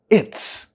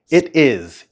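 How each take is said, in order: First: The two words are joined into one syllable. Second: The two words are said fully and separately.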